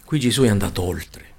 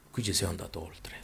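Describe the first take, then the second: First: Said in the usual way. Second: Much softer, near whisper; hushed repeat. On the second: Real, not acted. Preacher repeating the key point to his listeners, hushed. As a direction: drop to a hushed undertone.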